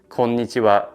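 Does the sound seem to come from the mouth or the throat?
mouth. The sound is made mainly in the mouth. The speaker calls it wrong. "instead of saying konnichiwa"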